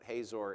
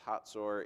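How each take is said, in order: First: The middle consonant is a plain z sound. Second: The middle consonant is a ts sound. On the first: This is the English way of saying it. "You would pronounce it Hazor in English" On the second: This is the Hebrew way of saying it. "it's pronounced Hatzor in Hebrew"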